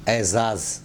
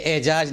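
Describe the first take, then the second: First: "اعزاز" as ezaaz, both z; careful ezaaz for "اعزاز"; correct double z. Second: "اعجاز" as ejaaj, both consonants j; mispronounced j for z. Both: Shown as a demonstration. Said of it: "یہ اعجاز نہیں".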